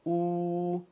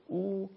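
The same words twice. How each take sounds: First: او held level for two beats; sustained two-beat Arabic او; long waw madd. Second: او as one brief beat, a u sound; a quick single-beat Arabic او; short damma. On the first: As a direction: stretch او into a long steady u. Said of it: "واو مدی به صورت". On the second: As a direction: say او short, without stretching it. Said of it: "ضمه به صورت". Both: Shown as a demonstration.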